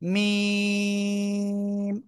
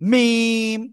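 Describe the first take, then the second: First: The word is said simply and lightly. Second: The word is said hard and forcefully. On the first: The speaker calls it right. "Just simple মিম" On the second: The speaker calls it wrong. "যদি আপনি একটু শক্ত করে উচ্চারণ করেন, মিম এরকম বলা যাবে না"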